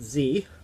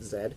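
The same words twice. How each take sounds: First: The letter is said in a non-Canadian way. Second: The letter is said in the Canadian way. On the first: This is how people elsewhere say it. "other people pronounce it Z" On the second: This is how people in Canada say it. "in Canada we pronounce it Z"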